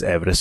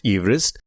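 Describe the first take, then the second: First: Said in the usual way. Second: "Everest" as EEV-rist, long ee; surname's original pronunciation. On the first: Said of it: "the modern pronunciation is Everest". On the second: Shown as a demonstration. Host confirming George's surname, "Everest" said EEV-rist. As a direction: start "Everest" with the vowel of "eve". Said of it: "his name was pronounced Everest".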